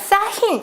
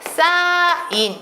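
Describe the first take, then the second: First: An h sound begins the second syllable. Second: No h sound begins the second syllable. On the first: The speaker calls it wrong. "우리가 싸힌 이렇게 발음하지 않아요" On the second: The speaker calls it right. "싸인 이렇게 발음합니다"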